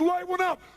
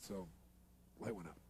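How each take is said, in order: First: It is said in a wild, crazed tone. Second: It is said in a calm, even tone.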